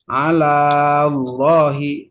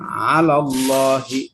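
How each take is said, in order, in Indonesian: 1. Vokal akhir kata pertama dibaca panjang. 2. Vokal akhir kata pertama dibaca pendek. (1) "Jadi jangan ala Allahi" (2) "tetapi dibuang ala Allahi"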